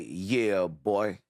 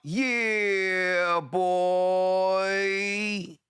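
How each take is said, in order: First: Both words are said short and quick. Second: Both words are stretched out long. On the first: Someone else said it this way. "He used to say" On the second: It is the speaker's own catchphrase version. "I took the "yeah," I made it longer, and I took the "boy," and I made it longer"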